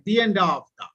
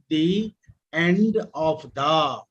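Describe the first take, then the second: First: 'The' runs smoothly into the vowel of 'end'. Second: 'The' is said apart from the vowel of 'end'. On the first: The speaker calls it right. "we pronounce like the end of the" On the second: The speaker calls it wrong. "We don't pronounce the end of the. Will be incorrect"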